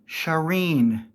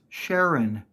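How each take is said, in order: First: The name is said as Shireen. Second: The name is said as Sharon. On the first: The speaker calls it wrong. "not Shireen" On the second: The speaker calls it right. "It's pronounced Sharon"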